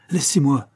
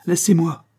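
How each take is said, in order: First: Slightly raised repeat, less forceful; a touch of a cry. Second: Higher, louder frantic cry. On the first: John repeating his plea, milder raised voice. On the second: John pushing the coroner away, loud cry. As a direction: cry out to be left alone. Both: A narrator's reading. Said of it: "s'écria John".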